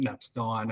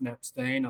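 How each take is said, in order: First: The name is said with German sounds. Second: The name is said with Australian English sounds. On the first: This reflects German heritage. "depending what sort of German heritage you have, you might like prefer to pronounce it Knappstein" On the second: This is the more common local way. "more commonly pronounced Knappstein. I think that's the Australian way"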